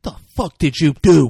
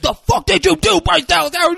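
First: Loud, raised-pitch accusation; mock angry yell. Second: Very high, loud screeched accusation; mock enraged scream. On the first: Pratt to Howard over dead long necks, mock outrage. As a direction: demand it loudly, acting out outrage. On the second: Pratt grabs Howard and blames her, hammed-up screaming. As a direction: scream it way over the top. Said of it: "And he grabs".

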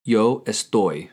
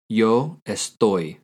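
First: Slow, clear Spanish answer for learners; teacher modelling Yo estoy slowly; slow model answer. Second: Slow, clear repeat of Yo estoy; teacher repeating the answer slowly; slow model answer. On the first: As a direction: spell it out slowly for the student. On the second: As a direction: say it again slowly so they can copy. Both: Shown as a demonstration. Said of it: "How do you say "I am" in Spanish".

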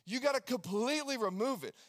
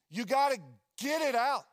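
First: Said in the usual way. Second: Loud, pushing exhortation; emphatic preaching. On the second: Acted. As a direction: drive it home hard.

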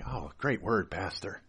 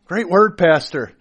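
First: Hoped-for praise. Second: Eager praise. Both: Retold or imitated. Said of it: "I was hoping that I would get some praise like".

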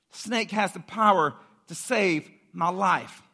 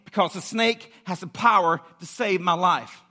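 First: Slow, weighty declaration in separated phrases; slow right down and let each phrase land; slow emphatic repeat. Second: Emphatic, driving declaration, POWER punched; urgent conviction. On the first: Preacher repeating the snakebite victim's hope, slow and deliberate. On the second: Preacher voicing the snakebitten trusting the snake, urgent conviction. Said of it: "the way people felt when they got bit". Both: Acted.

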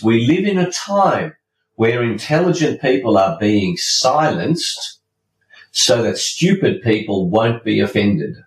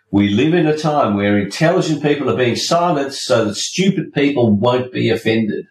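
First: Measured quote recital; deliberate quote reading. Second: Said in the usual way. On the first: Shown as a demonstration. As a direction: let each phrase land, pausing. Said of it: "the quote is this". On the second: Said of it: "You like that?".

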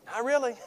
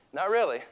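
First: Higher, pouty whiny reply; mock whine. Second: Said in the usual way. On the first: Upset man asked if he's okay, whiny. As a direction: whimper it like a sulking kid. Answer to "are you okay.

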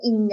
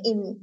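First: ING with the velar ng sound; ing ending. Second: IN with a plain n, G dropped; in ending. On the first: Explaining variation in word endings, full ing sound. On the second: Explaining variation in word endings, dropped-G in. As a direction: say IN ending on n, not ng. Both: Shown as a demonstration. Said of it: "variation between the ing and the in ending".

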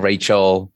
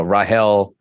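First: Said in the usual way. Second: "Rahel" with an H in the middle; Korean pronunciation. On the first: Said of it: "instead of Rachel". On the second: Shown as a demonstration. Guest showing a biblical name, "Rahel" said the Korean way. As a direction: say "Rahel" as rah-HEL, not Rachel. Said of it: "how the Korean people pronounce".

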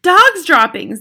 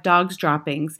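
First: High, loud cry of alarm; shouting. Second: Said in the usual way. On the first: A narrator's reading. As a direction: shout it like a whole crowd's alarm. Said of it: "they shouted". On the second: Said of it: "had taken up the dreaded cry".

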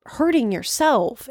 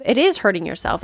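First: Said in the usual way. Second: It is hurting yourself with is hit hard; stress on is. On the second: Shown as a demonstration. Correcting herself, pressing hard on is. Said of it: "It's not almost".

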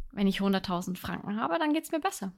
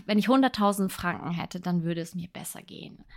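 First: Confident wish. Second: Wistful wish. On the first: Podcaster showing listeners the right way to phrase a wish, upbeat and sure. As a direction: say it like a goal you already own. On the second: Podcaster showing listeners the wrong way to phrase a wish, wistful and deflated. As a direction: sigh it out like an idle, hopeless wish. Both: Shown as a demonstration. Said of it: "Sondern du sagst".

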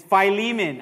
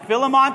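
First: "Philemon" said as "fy-LEE-mun"; long i first, stress the middle of "Philemon"; standard Philemon. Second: "Philemon" said as "FIL-uh-mon"; short i and first-syllable stress on "Philemon"; alternative Philemon. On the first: Pastor giving the Bible name, standard Philemon. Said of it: "how do you say this one?". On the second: Pastor offering what other people say, alternative Philemon. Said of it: "people say Philemon". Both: Shown as a demonstration.

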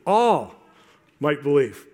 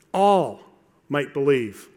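Both takes have the same delivery.

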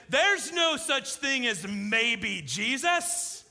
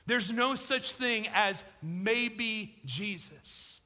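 First: Raised, slow, "There's" rising; mock outrage, higher and louder; bristling at a sales pitch; indignant quote. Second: Each word weighted, "no" leaned on; slow and deliberate; slow emphatic restatement. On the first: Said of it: "He threw his hands up". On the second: Shown as a demonstration. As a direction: drive the point home calmly. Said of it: "But John was right".

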